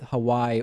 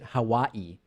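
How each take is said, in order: First: Hawaii is said the common, everyday way. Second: Hawaii is said a different, less common way.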